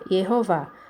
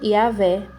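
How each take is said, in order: First: The name ends with an 'oh' vowel. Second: The name ends with an 'eh' vowel. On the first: The letter has a vowel mark above it. "ela ficaria com som de O, aí iria pronunciar como Yehová" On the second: The letter has no vowel mark above it. "eles pronunciam como Yahvé"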